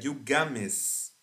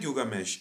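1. A palavra termina com o som sibilado de s. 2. A palavra termina com o som chiado de sh. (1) "é Gilgames" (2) "Não é Gilgamesh"

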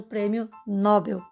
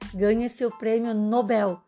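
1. A tônica está na primeira sílaba. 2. A tônica está na última sílaba. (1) "e não o prêmio Nobel" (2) "a palavra correta é Nobel"

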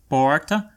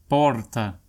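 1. O R é feito com a língua curvada para trás. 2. O R é feito com a língua vibrando.

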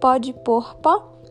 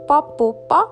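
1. Cada palavra é dita inteira e separadamente. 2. As palavras viram uma só, curta. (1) "que significa pode pôr pó" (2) "a gente tem uma mania de engolir uns final de frase e juntar as palavras"

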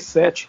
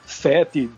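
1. Falado com um sotaque local mais novo e menos arrastado. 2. Falado com um sotaque local mais antigo e arrastado. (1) "eles dizem" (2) "Enquanto eu digo"

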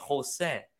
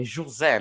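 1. Il nome si pronuncia con suoni spagnoli. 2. Il nome si pronuncia con suoni portoghesi. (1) "non si dice José" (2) "È José"

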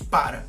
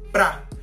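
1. La palabra se dice en dos sílabas completas. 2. La palabra se reduce a una sola sílaba. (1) "nosotros no decimos para" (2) "En el lenguaje cotidiano, pra"

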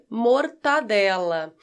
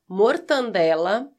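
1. Não há som de n antes do d. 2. Há um som de n extra antes do d. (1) "Eu adoro pão com mortadela" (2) "Mortandela é a forma errada"

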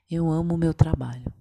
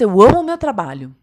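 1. A frase é dita de forma monótona, sem entusiasmo. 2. A frase é dita com energia animada e vibrante. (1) "num primeiro momento, quando eu falo, eu amo o meu trabalho, pela entonação, você já percebe que, tipo, tô falando por falar" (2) "Você vê uma empolgação. Realmente existe um amor naquilo"

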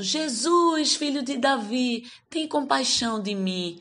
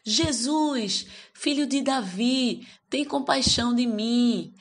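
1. É gritado mais alto do que da primeira vez. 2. É gritado num volume alto comum. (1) "E mais alto" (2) "ele começou a gritar"

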